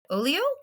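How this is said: It is said with a French pronunciation. "when I looked up the French pronunciation, it had Olio"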